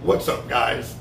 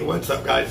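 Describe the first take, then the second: First: The greeting is spoken more slowly. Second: The greeting is spoken very fast. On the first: The speaker calls it right. "So I'm going to slow it down" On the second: The speaker calls it wrong. "I think I'm doing that really fast"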